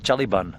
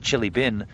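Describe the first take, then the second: First: The second word has a New Zealand vowel. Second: The second word is said with a plain vowel. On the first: "That's their accent" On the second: "they don't say chili bin"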